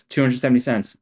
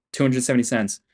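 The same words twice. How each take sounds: The two takes are said the same way.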